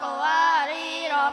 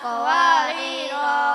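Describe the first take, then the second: First: The final vowel is short. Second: The final vowel is drawn out long. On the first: The reader runs on into the next word. "pendek-pendek wasol" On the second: The reader stops after the word. "panjang wakof"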